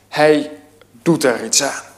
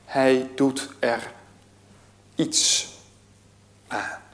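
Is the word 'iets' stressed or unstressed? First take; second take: unstressed; stressed. First: The word 'iets' is not given special stress. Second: The word 'iets' carries strong stress. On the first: He takes real action against the problem. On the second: He does only a little against the problem.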